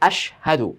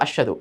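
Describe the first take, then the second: First: The h sound after sh is clearly pronounced. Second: The h sound after sh is barely heard. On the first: The speaker calls it right. "শিন আলাদা একটা হরফ, হা আলাদা একটা হরফ" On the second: The speaker calls it wrong. "হাটা যে এখানে আছে বলাই যায় না বা বুঝাই যায় না"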